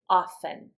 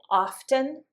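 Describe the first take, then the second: First: The T sound is silent in the middle. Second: The T sound is pronounced in the middle.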